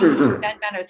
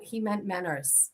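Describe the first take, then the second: First: "Menners" repeated louder for effect; emphatic repeat. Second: Dropped, low-key reveal of the name. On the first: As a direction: punch the reveal the second time. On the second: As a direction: let it slip out quietly. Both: Shown as a demonstration.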